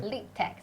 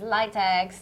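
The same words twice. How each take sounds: First: "litex" misread as LEE-tex; wrong pronunciation. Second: "litex" said as LIE-tex; correct pronunciation. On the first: Host shows viewers what not to say, "litex" as LEE-tex. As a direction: say "litex" softly with a long ee first. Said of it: "you cannot break down to say". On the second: Host confirms the name for everybody, "litex" as LIE-tex. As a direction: say "litex" with first syllable like "lie". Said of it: "Okay, so it's litex, everybody". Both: Shown as a demonstration.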